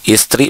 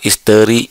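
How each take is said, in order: First: The word is said with two syllables. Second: The word is said with three syllables. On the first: This is the standard form. The speaker calls it right. "Istri bukan isteri" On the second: This is a nonstandard form. The speaker calls it wrong. "bukan isteri"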